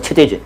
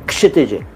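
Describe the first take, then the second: First: The name begins without a clear k sound. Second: The name begins with a clear k sound. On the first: The speaker calls it wrong. "दोनों गलत हैं" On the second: The speaker calls it right. "के से start करिए"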